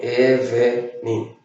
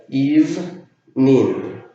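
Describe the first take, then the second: First: Evening read the Spanish way, e-ve-ning; evening wrongly in three syllables, evenin. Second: Evening as two slow syllables, ivnin. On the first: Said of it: "que no se pronuncia así". (evening mal leído en tres sílabas) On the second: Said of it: "Tiene dos sílabas". (Evening en dos sílabas lentas) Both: Shown as a demonstration.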